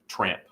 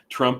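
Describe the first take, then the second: First: The vowel is an open 'ah' sound. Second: The vowel is a short 'uh' sound.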